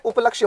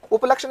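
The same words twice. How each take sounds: First: उपलक्ष्य with a y after the "ksh"; correct form demonstrated. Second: उपलक्ष्य ending in "ksh", without the y; wrong form demonstrated. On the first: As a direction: say उपलक्ष्य as "up-lakshya". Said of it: "उपलक्ष्य होता है". (उपलक्ष्य के अंत में "य" साफ़ बोलें) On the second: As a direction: say उपलक्ष्य as "up-laksh". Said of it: "उपलक्ष्य नहीं होता है". (उपलक्ष्य को बिना "य" के "उपलक्ष" बोलें) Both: Shown as a demonstration.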